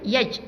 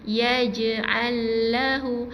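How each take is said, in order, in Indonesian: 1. Huruf j dihentikan secara tiba-tiba tanpa lepasan. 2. Huruf j dilepaskan dengan pantulan ringan. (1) "Kalau matikan pada makhrajnya yaj, jadi bacaannya akan tersekat" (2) "jadi kita baca dengan bacaan qalqalah"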